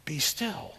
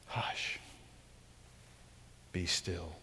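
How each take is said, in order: First: Softer, settling command; quiet the storm firmly; Jesus calming wind and waves. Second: Whispered, barely audible "Hush"; a hushed echo of the command. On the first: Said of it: "Jesus stands up and says". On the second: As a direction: hush them like a sleeping child. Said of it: "preacher echoing Jesus softly". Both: Pretend.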